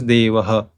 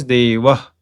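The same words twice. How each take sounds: First: Devaha with an echoed a after the h; Devaha, three syllables ending in ha; South Indian visarga. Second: Deva with a short breath after the last a; Deva, no vowel after the final h; ideal visarga pronunciation. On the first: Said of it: "in South India and many other places". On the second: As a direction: end Deva on a bare h. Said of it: "ideal pronunciation is". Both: Shown as a demonstration.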